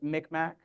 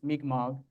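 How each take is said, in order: First: The name is said with an anglicized pronunciation. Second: The name is said with its native-language pronunciation. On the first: This is the common outsider pronunciation. The speaker calls it wrong. "many people pronounce it Micmac" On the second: This is how the nation asks it be said. The speaker calls it right. "the way the language pronounces it"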